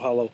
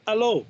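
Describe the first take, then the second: First: It begins with a clear H sound. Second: It begins with no H sound. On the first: The speaker calls it wrong. "I didn't go hello" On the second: The speaker calls it right. "Which is how the French, because the French don't say H"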